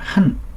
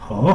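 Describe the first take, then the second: First: The syllable is pronounced han. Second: The syllable is pronounced he. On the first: It is used as the conjunction 'and'. "뭐뭇과라는 접속사로 쓰일 때는 한" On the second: It means harmony or to harmonize. "화합하다 할 때는 허"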